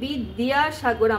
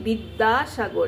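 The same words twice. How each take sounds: First: The middle consonant is 'd' followed by 'y'. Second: The middle consonant is a doubled 'd'. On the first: The speaker calls it wrong. "আমরা বলছি না" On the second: The speaker calls it right. "আমরা বলছি বিদ্যাসাগর, এই জন্য D D D A, বিদ দা"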